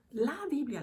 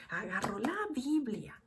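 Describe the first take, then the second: First: Emphatic repeat of "la Biblia"; stress on Biblia. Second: Said in the usual way. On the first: Shown as a demonstration. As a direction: hit "Biblia" harder the second time.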